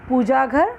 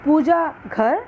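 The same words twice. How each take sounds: First: पूजा घर said as one word, no gap; words run together. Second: पूजा, slight pause, then घर; pause between words. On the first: Teacher contrasts two readings, running पूजा घर together. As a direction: join Puja straight onto घर in one flow. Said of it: "एक प्रवाह में एक साथ पढ़ना". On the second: Teacher contrasts two readings, pausing between Puja and घर. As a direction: split Puja from घर with a short gap. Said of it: "हल्का सा विराम लाना". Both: Shown as a demonstration.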